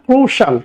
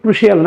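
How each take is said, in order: First: It is said in two syllables, ending 'shul'. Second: It is said in three syllables, ending 'shee-al'. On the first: The speaker calls it right. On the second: The speaker calls it wrong. "অনেকে বলে শিয়াল, ক্রুশিয়াল না"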